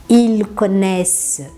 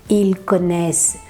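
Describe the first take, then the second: No difference in how they are said.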